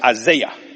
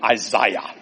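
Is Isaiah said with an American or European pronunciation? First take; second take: American; European. First: The name is said with an American pronunciation. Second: The name is said with a European pronunciation. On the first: "Americans say Isaiah" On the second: "The Europeans call him Isaiah"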